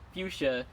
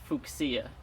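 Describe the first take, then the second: First: The word has its everyday English pronunciation. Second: The word has a Latin-style pronunciation.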